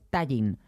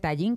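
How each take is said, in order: First: The stress is on the first syllable. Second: The stress is on the last syllable. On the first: The speaker calls it right. "que es llana, que es tallín" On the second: The speaker calls it wrong. "no se dice tallín, que no es aguda"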